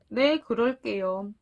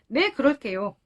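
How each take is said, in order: First: The reply sounds downcast and subdued. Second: The reply sounds bright and cheerful. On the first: The speaker has just been scolded. "약간 풀이 죽은 목소리로" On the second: The speaker is happy to agree. "이렇게 밝게 말했을 것 같아요"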